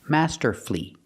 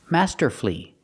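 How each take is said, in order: No difference in how they are said.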